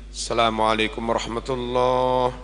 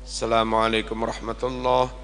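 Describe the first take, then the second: Both takes have the same delivery.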